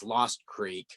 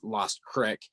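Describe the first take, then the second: First: The name is said the standard way. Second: The name is said the local way. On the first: "probably proper pronunciation is" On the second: "but locally it's, it's named as"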